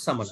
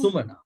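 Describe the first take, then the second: First: The first vowel sounds like 'a'. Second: The first vowel sounds like 'u'. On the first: The speaker calls it wrong. "not samana" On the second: The speaker calls it right.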